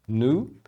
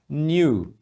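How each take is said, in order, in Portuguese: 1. Soa como um N simples seguido de U. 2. Não soa como N simples mais U. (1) "No inglês americano, é bem comum eles falarem new, como se fosse um N U" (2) "Você também pode falar new"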